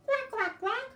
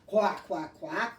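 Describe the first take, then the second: First: Put-on tiny squeaky baby duck; baby duck quack. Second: A lightly voiced big daddy duck; daddy duck quack. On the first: Teacher voices a little baby duck, very high quacks. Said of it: "You can be a little baby duck". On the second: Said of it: "or maybe a big daddy duck". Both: Shown as a demonstration.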